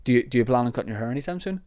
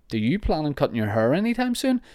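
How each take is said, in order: First: Fast, light, throwaway question; quick and casual. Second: Pointed, sneering question with a higher pitch; snide. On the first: Asking about hair casually, fast and light. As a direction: toss it off quickly and friendly. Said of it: "That's fine". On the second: Listener asking about his hair, snide and spiteful. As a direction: lean on it with a sneer. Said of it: "Then F you right back, mister". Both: Shown as a demonstration.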